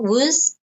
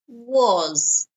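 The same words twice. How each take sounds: First: The word is said weakly, with a reduced vowel. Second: The word is said fully, with a strong vowel. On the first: The speaker calls it wrong. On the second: The speaker calls it right.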